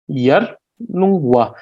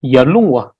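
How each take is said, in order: First: "yarlungwa" slowly split as yar, lung, wa; syllable by syllable. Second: Said in the usual way. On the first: Shown as a demonstration. Teacher breaking a place name down, slow separated "yarlungwa". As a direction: say "yarlungwa" at half speed, pausing between syllables. Word broken into syllables for learners.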